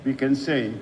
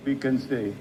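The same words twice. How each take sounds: The two takes are said the same way.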